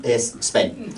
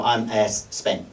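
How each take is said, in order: First: Put-on light Spanish accent, "Es Spain" with a rise at the end; a hint of a Spanish speaker, the "Es" drawn out; mock Spanish accent. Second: Slow, lightly put-on Spanish accent, stretching "es Spain"; a hint of a Spanish speaker saying "I'm es Spain", drawn out; mock Spanish accent. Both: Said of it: "'cause they go".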